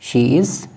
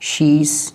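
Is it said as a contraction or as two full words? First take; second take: two words; contraction. First: It is said as two separate full words. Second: It is said as one contracted word.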